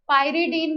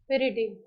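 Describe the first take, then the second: First: The first syllable sounds like 'pie'. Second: The first syllable sounds like 'pee'. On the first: Many people say it this way. "पायरिडीन भी कई लोग बोलते हैं" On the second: The speaker personally says it this way. "मैं पिरिडीन बोलती हूँ"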